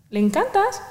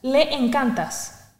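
First: "¿Le encantas?" asked higher with a rising end; "¿Le encantas?" lifted into a question. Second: "Le encantas" said slowly with a falling end; drawn-out "Le encantas", a flat statement. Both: Shown as a demonstration. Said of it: "La gente le encantas".

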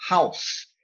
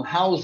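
First: "House" as a single syllable ending in "s"; one-sound house. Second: "house" split by an extra sound after the s; two-sound house. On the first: Teacher fixing the student's two sounds, one-syllable "House". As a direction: model "House" as one sound, nothing after the s. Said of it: "você tem que enxergar um só". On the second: Teacher pointing out the student's error, mispronouncing "house" as two sounds. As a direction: show the learner's two-syllable "house". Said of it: "você tá enxergando dois sons". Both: Shown as a demonstration.

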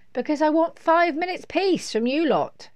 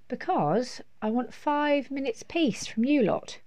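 First: High, loud exasperated insistence; fed-up mum. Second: Exasperated mum. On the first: Mum has had enough of the children, loud exasperation. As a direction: insist loudly, voice pitched up. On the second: Mum tells children why she is escaping, measured exasperation. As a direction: spell it out to the children, pitched up. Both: A narrator's reading.

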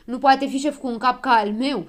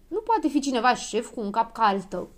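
First: Loud, raised, offended echo; louder, higher storybook retort; snapped back. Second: Restrained, mildly scornful remark; understated storybook put-down; dismissive objection. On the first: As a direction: throw the insult back indignantly. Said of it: "se răsti Habar N-am". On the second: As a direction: turn someone down with mild disdain. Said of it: "se miră Dondănel". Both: A narrator's reading.

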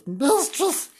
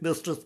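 First: MISTRESS drawn out in a high voice; put-on high swoop on MISTRESS; exaggerated MISTRESS. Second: Said in the usual way. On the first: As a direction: repeat "Mistress" high and theatrical. Name repeated in put-on voice.

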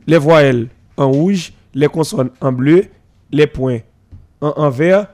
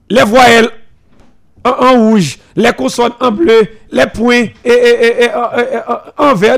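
First: Slow, lower, spelling out each item of the rule; slow recitation. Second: Stating the rule firmly. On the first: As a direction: recite the school rule like a teacher, slowly. (récitation lente et posée de la règle) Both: Shown as a demonstration. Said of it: "respecter les principes établis de l'école".

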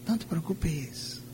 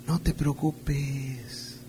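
First: Even softer, fading coax; the enemy's whisper, softer. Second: Soft, slow, coaxing tempter voice; the enemy's whisper. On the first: A preacher repeating the enemy's lie even softer to the flock. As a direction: let the lie die away to almost nothing. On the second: A preacher voicing the enemy, soft and slow to lull the flock. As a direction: lull them with a hushed, drawn-out lie. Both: Acted. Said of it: "una de sus frases que es".

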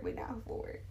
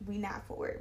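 First: Whisper. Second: Said in the usual way. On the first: Real, not acted. Whispered repeat.

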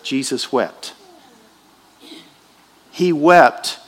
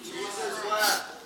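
First: Jesus wept stretched very slowly; very slow solemn quote; drawn out. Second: Jesus wept barely above a breath, slow; hushed reverent quote. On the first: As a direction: draw each word out for weight. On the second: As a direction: let it fall softly and slowly. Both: Shown as a demonstration. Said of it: "The shortest verse in the Bible".

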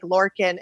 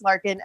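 First: "Lorkin" said with an OR in the first syllable; spelling pronunciation. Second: "Larkin" said with an AR in the first syllable; correct name pronunciation. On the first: Guest shows how her name looks spelled, "Lorkin" pronounced with OR. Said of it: "it's spelled like Lorkin". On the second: Guest explains her name to host, "Larkin" pronounced with AR. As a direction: say "Larkin" with LAR as in lark. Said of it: "or it's pronounced Larkin". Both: Shown as a demonstration.

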